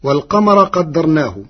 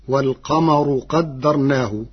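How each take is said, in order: First: والقمر as "wal-qamara"; final a vowel. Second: والقمر as "wal-qamaru"; rā with ḍamma. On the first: Teacher quotes the verse before Warsh's reading, والقمر ending in "-ra". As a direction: recite والقمر ending in fatḥa, "-ra". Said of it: "كلمة والقمر برفع الراء". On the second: Teacher shows Warsh's resulting reading, والقمر ending in "-ru". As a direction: end والقمر in a u vowel, "-ru". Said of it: "برفع الراء". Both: Shown as a demonstration.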